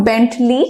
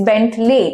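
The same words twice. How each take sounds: First: Bentley ending in "lee"; wrong pronunciation. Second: Bentley ending in "lay"; correct pronunciation. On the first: Teacher rejecting the common Bentley, mispronunciation. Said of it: "but it's not Bentley". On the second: Teacher correcting how learners say Bentley, right pronunciation. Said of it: "লে উচ্চারণ হবে". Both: Shown as a demonstration.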